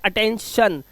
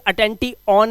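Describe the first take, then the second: First: The ending sounds like 'shun'. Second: The ending sounds like 'tee-on'. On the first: The speaker calls it right. "इसलिए इसे पढ़ते हैं अटेंशन" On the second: The speaker calls it wrong. "इसे अटेंटी ऑन नहीं पढ़ते"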